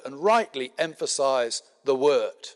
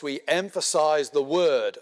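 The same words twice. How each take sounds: First: Rightly leaned on as the key word; stress on rightly. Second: Said in the usual way. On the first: Real, not acted. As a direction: give weight to rightly, rest falls away. Repeats phrase, adding rightly.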